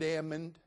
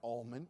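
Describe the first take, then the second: First: The L sound is silent in the word. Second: The L sound is pronounced in the word. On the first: The speaker calls it right. "I said almond" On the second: The speaker calls it wrong. "It's not almond"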